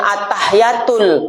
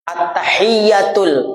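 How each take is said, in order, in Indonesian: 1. Bunyi y dibaca pendek dan tunggal. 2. Bunyi y dibaca panjang dan ganda. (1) "Jangan at-tahiyatul, nggak sah bacaannya" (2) "jelas bacanya"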